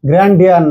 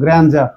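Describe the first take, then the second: First: The middle consonant is a plain d sound. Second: The middle consonant is a j sound. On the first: The speaker calls it wrong. "এটা গ্র্যান্ড ডিয়ার না" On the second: The speaker calls it right. "ডি এর উচ্চারণ জ এর মতো"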